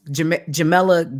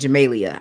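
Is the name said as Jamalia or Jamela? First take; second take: Jamela; Jamalia. First: The name is said as Jamela. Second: The name is said as Jamalia. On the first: The speaker calls it right. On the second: The speaker calls it wrong.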